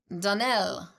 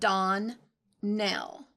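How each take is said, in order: First: The stress is on the last syllable. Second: The stress is on the first syllable. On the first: The speaker calls it right. "Accent on the last syllable" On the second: The speaker calls it wrong. "you pronounced our name"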